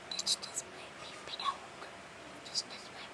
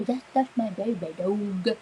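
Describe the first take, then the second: First: Hushed, voiceless whisper; barely audible playful catchphrase. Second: Said in the usual way. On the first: Pretend. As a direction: whisper it very softly.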